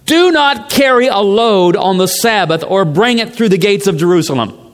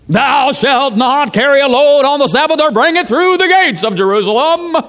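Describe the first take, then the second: First: It is read in his ordinary voice. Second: It is read in a Pharisee preacher voice.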